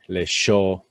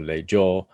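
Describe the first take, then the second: First: The middle consonant has the Argentine-Uruguayan sound. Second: The middle consonant is a plain y-like glide. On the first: "if we were in, say, Argentina or Uruguay" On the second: "It's actually a J sound"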